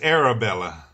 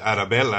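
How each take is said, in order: First: The name is said with an English accent. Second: The name is said with a Spanish accent. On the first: "But it's Arabella" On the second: "that Spanish accent that I put in there"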